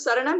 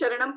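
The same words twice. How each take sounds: First: The word begins with an 's' sound. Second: The word begins with a 'sh' sound. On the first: The speaker calls it right. "प्राकृत में श letter ही नहीं है, सिर्फ स है" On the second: The speaker calls it wrong. "जो गलती मैंने की"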